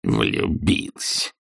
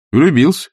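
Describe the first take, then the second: First: Low, very slow, soft sneer; scornful grumbling. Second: High, quick, frank answer; lively nephew. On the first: Scrooge echoing his nephew's reason, scornful grumble. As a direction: grumble it slowly as utter absurdity. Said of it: "проворчал Скрудж таким тоном". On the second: Nephew explaining his marriage to uncle, lively. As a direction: declare it brightly and simply. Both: A narrator's reading.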